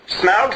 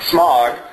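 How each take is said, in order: First: The name does not sound like smog. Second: The name sounds like the word smog. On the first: "Smaug sounds stupid to me" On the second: "I honestly grew up pronouncing it Smog"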